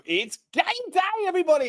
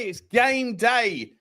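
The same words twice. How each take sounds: First: High, bright-pitched hype to the viewers; rally the audience like a matchday host; hyped game day call. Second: Slow, stretched "It's game day" with weight on "game"; drawn-out repeat. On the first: Host opening his stream to fans, high excited hype. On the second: Host repeating the hype to viewers, slowly drawn out. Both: Real, not acted.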